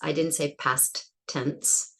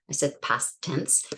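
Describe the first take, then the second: First: Both T sounds are said separately. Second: The two T sounds merge into one. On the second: "the two stops will get combined"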